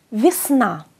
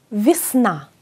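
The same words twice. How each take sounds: First: "βυσνά" with e heard as i, falling; modelled Russian "βυσνά"; Russian pronunciation. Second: "Βυσνά" repeated, e as i, falling; second model of "Βυσνά"; Russian pronunciation. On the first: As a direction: say "βυσνά" as visna, clear model. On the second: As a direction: repeat "Βυσνά" as visna for the class. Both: Shown as a demonstration. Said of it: "Το γε ακούγεται ως ι".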